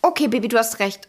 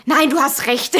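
First: Nachgespieltes, beiläufiges Einlenken; lustloses Nachgeben. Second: Mit Nachdruck einlenken; nachgespieltes Abwiegeln. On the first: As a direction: ohne Lust auf Streit klein beigeben. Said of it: "weil ich keine Lust hatte". (lustlos nachgebend) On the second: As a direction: die Diskussion abwürgen, halb im Scherz. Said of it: "und dann so". (abwiegelnd nachgespielt) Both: Retold or imitated.

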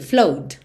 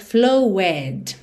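First: FLOWED in one syllable, flohd; just add a D sound to flow in FLOWED; correct pronunciation. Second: FLOWED wrongly split in two syllables, flow-ED; wrong pronunciation. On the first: Teacher modelling the past tense, FLOWED as one syllable, flohd. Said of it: "bota só o som do D". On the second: Teacher warning learners off a mistake, FLOWED said wrongly as flow-ED. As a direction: sound the E of FLOWED as a separate syllable. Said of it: "Você não vai dizer flowed". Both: Shown as a demonstration.

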